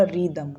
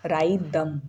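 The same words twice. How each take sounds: First: रिदम with a short "ri" first syllable; R straight into Y. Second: राइदम with a long "rye" first syllable; "eye" vowel after the R in राइदम; spelling pronunciation. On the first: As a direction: say रिदम as rid-um, H silent. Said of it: "आर और फिर सीधे हमने वाई पे jump". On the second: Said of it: "तो इसका हम बोलते". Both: Shown as a demonstration.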